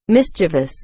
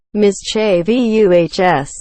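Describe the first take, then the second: First: MISCHIEVOUS in three syllables, MIS-chuh-vus; plain mischievous. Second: MISCHIEVOUS drawn out slowly, stressed on CHE; slow MISCHIEVOUS, spelling out its ending; exaggerated mischievous. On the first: Griping about a common error, three-syllable MISCHIEVOUS. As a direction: say MISCHIEVOUS with stress up front. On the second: Griping about the extra I, slow spelled-out MISCHIEVOUS. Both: Shown as a demonstration. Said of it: "There's no I in the vu".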